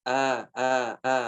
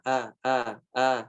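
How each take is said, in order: Both takes have the same delivery.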